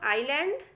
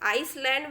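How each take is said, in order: First: The word has no s sound. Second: The word has an s sound. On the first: The speaker calls it right. "इसको बोला जाता है बच्चों आइलैंड" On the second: The speaker calls it wrong. "आम बोलचाल में आइसलैंड भी बोलते हैं, लेकिन वो गलत है"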